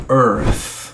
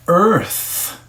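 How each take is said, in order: First: "earth" strong on the first syllable, the TH fading out; earth, soft TH. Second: "earth" with the tongue between the teeth on the TH; exaggerated earth. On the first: Teacher models the softened TH in earth. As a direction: lean on the start of "earth" and let the TH die away. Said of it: "forte na primeira sílaba e o T H ele diminui". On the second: Teacher exaggerates the TH in earth for students. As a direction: push the TH of "earth" hard. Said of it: "você tem que exagerar". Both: Shown as a demonstration.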